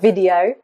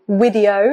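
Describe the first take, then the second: First: The word starts with a v sound. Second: The word starts with a w sound. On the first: The speaker calls it right. "instead of video" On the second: The speaker calls it wrong. "you often hear problems like"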